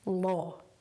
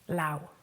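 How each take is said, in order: First: The vowel is a single long 'aw' sound. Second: The vowel glides like 'ow' in 'cow'. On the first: The speaker calls it right. "but it is law" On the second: The speaker calls it wrong. "is often pronounced lao by learners"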